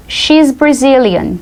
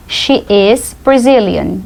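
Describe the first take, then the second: First: "She's Brazilian" slowly, with SHE'S run together as one syllable; contracted form. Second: "She is Brazilian" slowly, SHE and IS as separate words; full form. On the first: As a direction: say "She's" as one word, at teaching pace. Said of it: "a gente diz assim". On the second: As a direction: spell out "She is" word by word. Teacher expands the contraction. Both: Shown as a demonstration.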